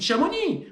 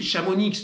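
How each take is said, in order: First: The final x sound is silent. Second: The final x sound is pronounced. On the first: The speaker calls it right. "on ne prononce pas le X" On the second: The speaker calls it wrong.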